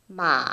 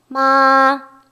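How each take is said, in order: First: The pitch stays low, dipping slightly. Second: The pitch stays high and level. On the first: "최대한 낮게" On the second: "가장 높은 음역대"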